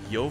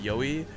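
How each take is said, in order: First: The name is said with one syllable. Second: The name is said with two syllables. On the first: The speaker calls it wrong. "I always thought it was like Yo Flash Wolves" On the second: The speaker calls it right. "I learned that it was pronounced Yoey"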